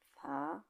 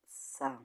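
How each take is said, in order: First: The z sounds like a th. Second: The z sounds like an s. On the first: "In Spain"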